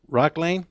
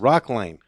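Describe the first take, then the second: First: The second word has an 'ay' vowel, like lane. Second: The second word has an 'eye' vowel, like line. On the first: The speaker calls it wrong. "Is it Rock Lane or Rock Rock Line?" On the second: The speaker calls it right. "I'm gonna say it again"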